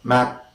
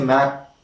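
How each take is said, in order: No difference in how they are said.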